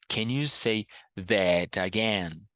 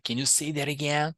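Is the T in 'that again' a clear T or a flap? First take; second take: clear T; flap. First: The T in 'that again' is a clear T. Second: The T in 'that again' is a quick flap. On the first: "Posso falar can you say that again? Posso. Muita gente faz isso. Super aceitável" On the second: "Mas muita gente fala"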